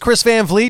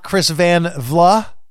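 First: The surname ends with a 'vleet' sound. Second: The surname ends with a 'vla' sound. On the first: The speaker calls it right. "it's Chris Van Vliet" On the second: The speaker calls it wrong. "It is not Chris Van Vla"

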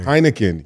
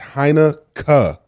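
First: The ending is said the usual English way. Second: The ending is said the Dutch way. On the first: The speaker calls it wrong. "you're saying it wrong" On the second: The speaker calls it right. "That K-E-N is pronounced K in Holland"

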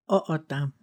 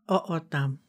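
Both takes have the same delivery.

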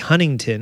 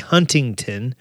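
First: The middle T sound is dropped. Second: The middle T sound is clearly pronounced. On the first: This is how the speaker normally says it. "I always say Huntington" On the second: This is how the speaker never says it. "I don't say Huntington"

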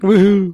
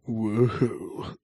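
First: It is said in an attempted high voice. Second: It is said in a deep, manly voice.

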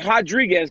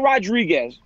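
First: The name begins with an H sound. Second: The name begins with an R sound.

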